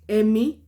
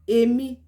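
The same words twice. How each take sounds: First: It carries the tone pattern of the word 'mind'. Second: It carries the tone pattern of the word 'me'. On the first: It refers to the mind. "Èmi, mind" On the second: It refers to oneself. "Èmi, me"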